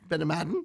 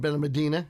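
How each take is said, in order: First: It is said with a Spanish-style pronunciation. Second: It is said with an English-style pronunciation. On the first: "I believe the Spanish way is" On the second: "is how I, I pronounce it"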